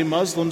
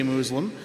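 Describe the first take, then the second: First: "Muslim" said MUZ-lum; short u pronunciation. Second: "Muslim" said MOOZ-lum; long oo pronunciation. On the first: Pastor quoting one side of a naming dispute, short-u pronunciation. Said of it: "those that say Muslim". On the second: Pastor voicing the disputed way of naming believers, long-oo pronunciation. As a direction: say "Muslim" with an oo as in moon. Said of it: "say you shouldn't say Muslim". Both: Shown as a demonstration.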